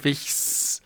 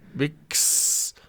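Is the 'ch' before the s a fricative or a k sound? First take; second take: fricative; k. First: The ch is a soft hissing fricative. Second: The ch is a hard k sound. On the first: The speaker calls it wrong. "Wix statt Wichs" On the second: The speaker calls it right. "Wix statt Wichs"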